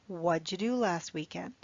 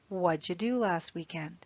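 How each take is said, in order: First: 'What did' is linked into one short syllable. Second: The same.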